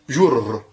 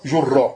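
First: The word ends on a bare r consonant. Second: The word ends with a doubled r and vowel. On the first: The speaker calls it wrong. "C'est pas prononçable" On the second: The speaker calls it right. "On met le fatha"

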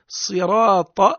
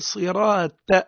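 First: The final t is heavy and emphatic. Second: The final t is light and plain. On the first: The speaker calls it right. "عوض أن يقرأ صراط" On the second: The speaker calls it wrong. "عوض أن يقول طاء يقول تاء"

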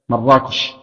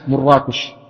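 First: The key vowel is an 'a' sound. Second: The key vowel is not an 'a' sound. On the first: "ضبطها بالفتح" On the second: "أو العكس"

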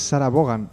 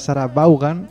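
First: The name mixes English and Spanish pronunciation. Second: The name is read out with Spanish pronunciation. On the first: This is a compromise used in Spain. "una intermedia que no está ni bien ni españolizado siquiera" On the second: This is how it reads in Spanish spelling. "En castellano leído sería Sarah Vaughan"

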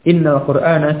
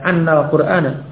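First: The first word begins with an 'i' vowel. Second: The first word begins with an 'a' vowel. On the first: The speaker calls it right. "tapi yang kasrah. Inna" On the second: The speaker calls it wrong. "Tidak annal Qur'ana, tidak"

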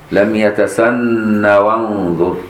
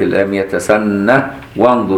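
First: The word runs into wanzur without an h. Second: An h sound ends the word before wanzur. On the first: "لا يثبت الهاء في يتسنه وصلا" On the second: "بإثبات الهاء وصلا ووقفا"

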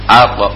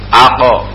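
First: The q is released with a light bounce. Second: The q is followed by a full vowel. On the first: The speaker calls it right. "tapi khafifah" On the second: The speaker calls it wrong. "harokat yang keluarnya bukan pantulan, bukan idrabul makhraj"

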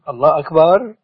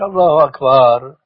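First: The phrase ends sounding like a question. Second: The phrase is cut short like a firm statement. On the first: The speaker calls it wrong. "هذا صار كأنه يستفهم" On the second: The speaker calls it right. "التكبير جزم خطف"

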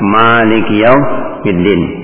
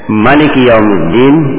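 First: The first vowel of Malik is held long. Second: The first vowel of Malik is kept short. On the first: God is the owner of the Day of Judgment. "Bacaan dengan panjang" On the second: God is the king of the Day of Judgment. "Kalau dibaca pendek"

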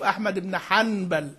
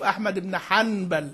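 First: A clear n sound is made before the b. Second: A clear n sound is made before the b.

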